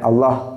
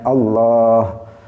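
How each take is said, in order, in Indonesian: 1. Vokalnya dipendekkan. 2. Vokalnya dibaca panjang. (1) "dia baca Allah. Itu juga berarti mengurangi huruf" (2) "harusnya Allah"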